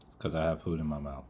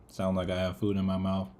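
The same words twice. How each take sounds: First: "have" stressed, lower and softer. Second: "food" stressed, "have" unstressed. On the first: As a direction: lean on "have". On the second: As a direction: lean on "food". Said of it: "it's 'cause I have food in my mouth". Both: Real, not acted.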